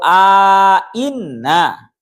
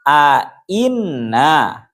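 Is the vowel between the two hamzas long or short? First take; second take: long; short. First: A lengthened vowel is inserted between the two hamzas. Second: The two hamzas are joined without a lengthened vowel. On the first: "kira yang kedua" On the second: "tanpa diberi alif"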